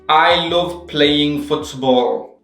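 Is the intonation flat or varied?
flat. The pitch stays flat throughout the sentence. The speaker calls it wrong.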